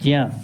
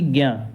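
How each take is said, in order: First: The syllable begins with a j sound. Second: The syllable begins with a g sound. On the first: This is the traditional pronunciation. The speaker calls it right. "तो हम इसे क्या पढ़ेंगे? ज्या" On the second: This is the common modern reading. The speaker calls it wrong. "ना कि ज्ञा, क्योंकि ज्ञा का मतलब होता है गा और आधा या"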